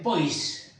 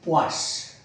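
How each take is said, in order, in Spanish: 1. Se pronuncia al estilo inglés. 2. Se pronuncia al estilo francés. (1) "Los ingleses dicen poise" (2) "los franceses supongo yo que dirán poise"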